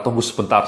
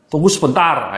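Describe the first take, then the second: First: Said in the usual way. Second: "Tunggu sebentar" said higher and louder, cut short; curt brush-off. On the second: Shown as a demonstration. Trainer mimics a call center cutting a customer off curtly. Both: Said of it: "ini sering kata-kata".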